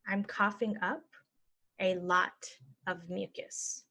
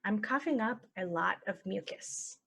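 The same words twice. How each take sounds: First: Slow, broken into chunks; slow chunked. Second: Said in the usual way. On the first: Shown as a demonstration. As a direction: model it slowly for learners. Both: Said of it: "normal then slow".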